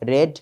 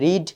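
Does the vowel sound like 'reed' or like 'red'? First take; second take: red; reed. First: The vowel is short, like 'red'. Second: The vowel is long, like 'reed'. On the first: It is the past tense. "Past টেন্সের উচ্চারণ হবে রেড" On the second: It is the present tense. "রিড পড়া"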